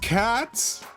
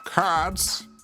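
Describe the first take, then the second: First: It is said in the speaker's own voice. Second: It is said in a put-on Garfield voice.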